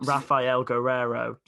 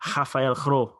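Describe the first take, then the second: First: The surname is said with all its syllables. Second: The surname is squeezed into about one syllable. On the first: "six syllables" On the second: "He calls him like"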